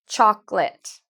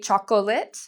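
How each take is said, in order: First: The middle O is silent. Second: The middle O is pronounced as a syllable. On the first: The speaker calls it right. "It's like this O doesn't exist" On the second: The speaker calls it wrong. "A lot of students say chocolate. That's incorrect"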